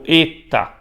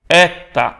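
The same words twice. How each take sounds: First: The first vowel is a closed e sound. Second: The first vowel is an open e sound. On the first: "ou se é e fechado" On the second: "será eta aberto"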